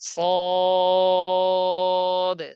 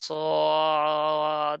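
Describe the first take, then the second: First: The sound is steady with a relaxed throat. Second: The sound is pressed in the throat and wavers. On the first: The speaker calls it right. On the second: The speaker calls it wrong.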